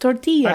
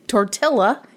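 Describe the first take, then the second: First: The double L is said as a Y sound. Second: The double L is said as an L sound. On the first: The speaker calls it right. "It's tortilla" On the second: The speaker calls it wrong. "when you say tortilla, it is not correct"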